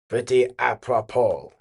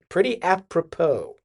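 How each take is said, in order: First: It is said with a put-on French accent. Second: It is said in a plain, unaccented voice.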